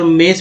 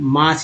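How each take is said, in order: First: The vowel is an 'e' sound. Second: The vowel is a long 'aa' sound. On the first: The speaker calls it wrong. "मेस भी नहीं पढ़ेंगे" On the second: The speaker calls it right. "मास ही पढ़ते हैं"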